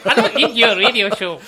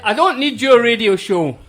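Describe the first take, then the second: First: It is said in a put-on imitated voice. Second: It is read in the speaker's ordinary voice. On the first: The speaker calls it right. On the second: The speaker calls it wrong.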